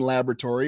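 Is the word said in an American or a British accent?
American. It is said in an American accent.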